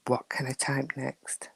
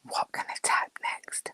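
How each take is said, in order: First: Soft imitated thought; whispered echo. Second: Soft whisper, no voice; mock whispered musing; imitating her thoughts. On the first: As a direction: repeat "What can I type next?" in a lower, fading whisper. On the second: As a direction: whisper as a friend's inner thought. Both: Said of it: "She sat there thinking".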